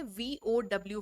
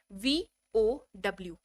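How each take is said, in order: First: Said in the usual way. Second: वीओडब्ल्यू drawn out letter by letter, slow; slow spelled out. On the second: Shown as a demonstration. Teacher naming the formula to students, slowly spelled out.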